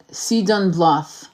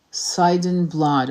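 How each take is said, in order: First: "Sidon Bloth" read slowly, each syllable drawn out while typing, ending "Bloth" on "th"; name spelled out slowly. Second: "Blood" said slowly with a hard "d" ending, as he retypes it; "Sidon Blood" read slowly and deliberately, ending "Blood" on a firm "d"; corrected name, slowly. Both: Shown as a demonstration. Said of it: "'cause it wants to autocorrect".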